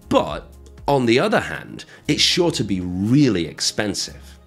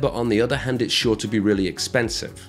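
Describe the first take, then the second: First: It is said with small pauses. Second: It is said quickly without pauses. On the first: The speaker calls it right. "when we say it like that with those pauses" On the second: The speaker calls it wrong. "because I said that fast"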